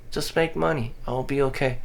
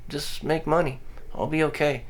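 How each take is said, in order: Both takes have the same delivery.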